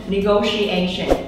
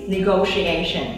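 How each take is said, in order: The two takes are said the same way.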